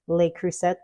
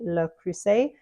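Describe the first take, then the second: First: The name is pronounced the American way. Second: The name is pronounced the French way. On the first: The speaker calls it wrong. "here in the U S a lot of us say" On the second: The speaker calls it right. "it's actually"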